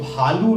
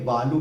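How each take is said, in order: First: It begins with a breathy bh sound. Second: It begins with a plain b sound. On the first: The speaker calls it right. "भालू ना बोल करके" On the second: The speaker calls it wrong. "वो भ की जगह ब का उच्चारण करते हैं"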